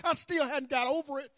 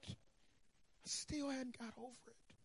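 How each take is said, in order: First: Said in the usual way. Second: Much softer, slow, drawn-out repeat; soft slow echo. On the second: Shown as a demonstration. Preacher echoing his own line, softly and slowly. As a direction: let it sink in, softly and slowly.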